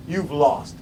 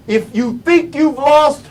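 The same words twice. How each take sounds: First: Low, soft, final fall; dropped verdict. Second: Higher, suspended first half; raised setup. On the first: Speaker giving listeners the consequence, low and final. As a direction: drop it down as a quiet conclusion. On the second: Speaker posing a condition to listeners, raised. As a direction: lift it and leave it hanging. Sets up a contrast in two halves. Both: Real, not acted.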